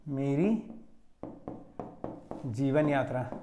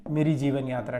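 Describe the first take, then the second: First: मेरी, a long pause, then जीवन यात्रा, slow and softer; slow dictation. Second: Said in the usual way. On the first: Shown as a demonstration. Teacher dictating the title to students, slow and spaced. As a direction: spell out मेरी ... जीवन यात्रा word by word for notes. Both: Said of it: "आत्मकथा लिखिएगा".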